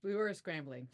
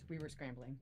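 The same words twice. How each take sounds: First: Said in the usual way. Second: Softer, dropped-down aside; hushed aside to the chat; confiding to viewers. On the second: Real, not acted. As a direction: let the viewers in on it quietly. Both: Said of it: "Oh my gosh, you guys".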